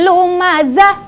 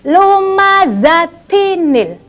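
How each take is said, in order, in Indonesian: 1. Kata ini berakhir biasa tanpa tambahan suku kata. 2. Kata ini berakhir dengan tambahan suku kata -tinil. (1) "Maka tidak lagi humazah, eh, lumazah, tidak" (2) "Tapi menjadi lumazatinil"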